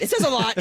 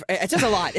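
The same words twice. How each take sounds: First: Says a lot pushed higher and louder; higher louder insistent It says a lot; emphatic repeat. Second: Said in the usual way. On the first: Real, not acted. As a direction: hammer It says a lot home.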